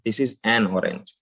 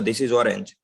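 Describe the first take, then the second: First: An n sound separates the article from orange. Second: The article vowel blends straight into orange. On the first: The article is heard clearly. The speaker calls it right. "एक cut लगाने के लिए हम एन लगाते हैं" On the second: The listener cannot tell which article was used. The speaker calls it wrong. "अ और अ mix हो गया"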